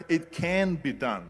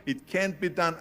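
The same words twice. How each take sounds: First: "can" said slowly and firmly, with no "can't"; turning a naysayer's words around, slow and firm; slow, firm affirmation. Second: Said in the usual way. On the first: Shown as a demonstration. Speaker flips a naysayer's words, slow and firm. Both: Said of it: "I heard".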